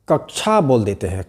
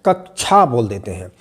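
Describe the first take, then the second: Both takes have the same delivery.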